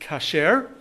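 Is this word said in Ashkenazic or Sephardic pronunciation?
Sephardic. It is said in Sephardic Hebrew pronunciation.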